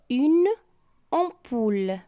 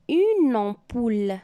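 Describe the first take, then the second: First: The two words are said without linking. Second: The final consonant links into the next word.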